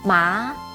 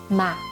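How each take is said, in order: First: The pitch rises from mid to high. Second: The pitch is short, light and unstressed. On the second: "fifth or neutral tone"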